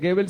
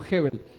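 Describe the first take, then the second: First: The name begins with a hard G sound. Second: The name begins with a breathy H sound. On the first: The speaker calls it wrong. "no se dice Gebel" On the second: The speaker calls it right. "sino Hebel"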